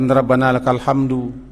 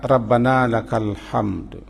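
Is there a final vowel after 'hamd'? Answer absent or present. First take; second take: present; absent. First: The phrase ends with an added final 'u' vowel. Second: The phrase ends on 'hamd' with no final vowel. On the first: The speaker calls it wrong. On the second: The speaker calls it right. "bunyi pujian itu"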